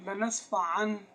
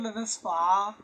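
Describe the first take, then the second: First: The word ends with a clear n sound. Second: The word ends on a long vowel. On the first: The reading continues without stopping. "जब हमने मुसलसल पढ़ा तो तब हम नून का इजहार करते हैं" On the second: The reader stops at this word. "जब रुके तो"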